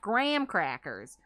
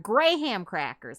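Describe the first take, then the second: First: The H is dropped, making the name one syllable. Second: The H sound splits the name into two syllables. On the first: The speaker calls it wrong. "not graham crackers" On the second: The speaker calls it right. "They're Graham crackers"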